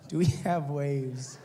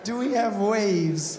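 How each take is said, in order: First: Slow, low incredulous echo; deadpan disbelief. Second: Slow, raised incredulous echo; exasperated disbelief. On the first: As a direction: repeat it slowly, not believing it. Repeats her stupid question in disbelief. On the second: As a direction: draw it out in louder disbelief. Repeats the question again, more incredulous. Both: Retold or imitated.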